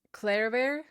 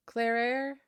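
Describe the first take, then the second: No difference in how they are said.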